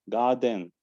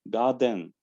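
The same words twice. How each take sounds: Both takes have the same delivery.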